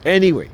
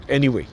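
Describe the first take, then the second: First: "any way" repeated louder and higher; stress on any way. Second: Said in the usual way. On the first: Shown as a demonstration. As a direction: punch "any way" the second time.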